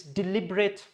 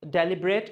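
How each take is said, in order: First: "deliberate" as di-LIB-ret; correct stress. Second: "deliberate" with a first syllable like DELL; wrong pronunciation. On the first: Teacher correcting learners, "deliberate" as di-LIB-ret. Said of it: "it's deliberate". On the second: Teacher showing the mistake, "deliberate" as DELL-i-bret. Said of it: "It's not". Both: Shown as a demonstration.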